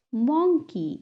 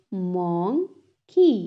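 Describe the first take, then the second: First: Said in the usual way. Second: "monkey" slowly split as mon, key; syllable by syllable. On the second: Shown as a demonstration. Teacher has class repeat, "monkey" broken in two. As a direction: clear pause between the two halves of "monkey". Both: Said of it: "टू syllables में divide".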